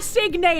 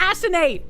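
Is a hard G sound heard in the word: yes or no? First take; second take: yes; no. First: The word is said with a hard G sound. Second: The word is said without a hard G sound. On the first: The speaker calls it wrong. "I don't want to pronounce the G hard!" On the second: The speaker calls it right. "I want to assonate!"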